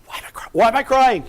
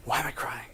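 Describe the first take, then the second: First: A high, puzzled outburst at your own tears; mildly astonished at yourself; bewildered. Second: A near-whisper, turned inward; low and hushed, wondering to yourself; quiet wonder. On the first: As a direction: ask it higher and louder, baffled. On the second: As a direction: ask it softly, much lower and hushed. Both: Retold or imitated. I started crying.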